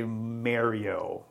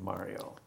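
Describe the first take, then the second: First: "Mario" with the first vowel as in "marry"; mispronounced Mario. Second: Said in the usual way. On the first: Shown as a demonstration. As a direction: say "Mario" as MARE-ee-oh. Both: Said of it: "people who say Mario instead of Mario".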